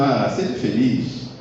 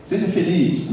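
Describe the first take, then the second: First: Slow, easy wish, not a command; mere wish. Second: Higher, commanding tone; firm order. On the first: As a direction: say it like a casual hope, drawn out. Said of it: "isso é uma ordem". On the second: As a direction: make it a command, not a wish. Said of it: "isso é uma ordem que eu estou dando". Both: Shown as a demonstration.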